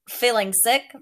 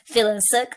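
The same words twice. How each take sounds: First: It is said in an imitated character voice. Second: It is said in the speaker's normal voice.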